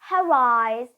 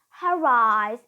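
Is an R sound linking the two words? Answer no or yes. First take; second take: yes; yes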